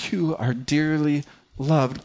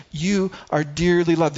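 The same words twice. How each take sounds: First: "You are dearly loved" slow, stress on "You", falling; slow, gentle declaration. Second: "You are dearly loved" a bit quicker, stress on "You"; firmer declaration. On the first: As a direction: speak it slowly, landing on "You". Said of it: "Jesus declares". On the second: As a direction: say it as a firm statement. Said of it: "God declares". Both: Shown as a demonstration.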